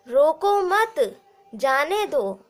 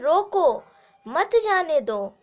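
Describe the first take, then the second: First: The pause comes after 'mat'. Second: The pause comes after 'roko'.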